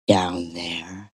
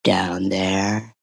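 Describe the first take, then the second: First: Hushed mock-ad whisper. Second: "down there" called out low as a hammed-up punchline; mock shout. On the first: Mocking a lactation ad, whispering the tagline. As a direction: breathe it like a secret. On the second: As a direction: bark the tagline.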